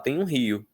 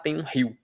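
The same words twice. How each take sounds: First: Rio is said as two separate syllables. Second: Rio is squeezed into one syllable with a glide. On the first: The speaker calls it right. "o normal é falar" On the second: The speaker calls it wrong. "Imagino que deva haver pessoas que falem"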